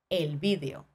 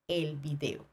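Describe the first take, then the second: First: The stress falls on the first syllable, vi. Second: The stress falls on the second syllable, de. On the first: This is how it is said in Spain. "En Espagne, tu vas plutôt entendre el video" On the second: This is how it is said in Latin America. "Et en Amérique latine, tu vas pas voir cet accent-là sur le i"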